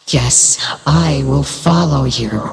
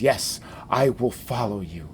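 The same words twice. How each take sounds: First: It is said in a put-on character voice. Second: It is said in the speaker's own voice.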